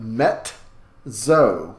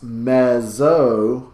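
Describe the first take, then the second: First: A T sound comes before the double Z. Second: The double Z is said without a T sound. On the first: The speaker calls it right. "with a T sound right before the second Z" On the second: The speaker calls it wrong. "It is not pronounced mezzo"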